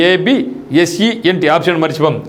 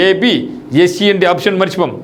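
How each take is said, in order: Both takes have the same delivery.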